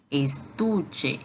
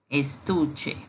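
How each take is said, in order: First: "estuche" with Spanish ch; Spanish pronunciation. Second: "estuche" repeated; Spanish repeat. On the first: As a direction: model "estuche" clearly. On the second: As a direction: echo "estuche". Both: Shown as a demonstration. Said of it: "e em espanhol se diz".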